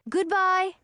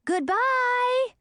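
First: Calling goodbye. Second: High, chirpy chorus of worms calling; worms calling back. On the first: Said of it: "Audun called". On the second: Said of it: "they all called back". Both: Acted.

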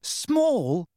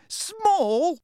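First: High, disbelieving echo; incredulous. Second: Very high, rising squeak; outraged disbelief. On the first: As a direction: throw the word back high. Hermione echoes in disbelief. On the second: Hermione echoes, more incredulous. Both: A narrator's reading.

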